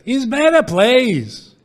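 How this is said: It is said with a Jewish, Yiddish-style inflection.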